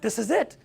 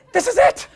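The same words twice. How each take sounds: First: Said in the usual way. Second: High, loud burst of anticipation; hammed-up big-moment excitement; mock excitement. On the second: Mentor telling himself the breakthrough is here, mock excitement.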